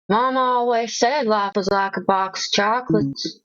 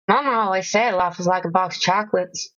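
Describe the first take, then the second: First: The line is said at a slower pace. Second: The line is said at a faster pace.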